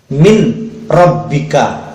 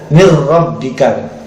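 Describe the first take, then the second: First: The n sound is pronounced before the r. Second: The n sound merges into a doubled r.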